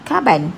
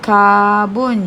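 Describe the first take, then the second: First: The second syllable has an 'a' vowel. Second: The second syllable has an 'o' vowel. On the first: The speaker calls it wrong. "Yang salah ialah karban. Salah" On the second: The speaker calls it right. "sebutannya juga sama, iaitu karbon juga"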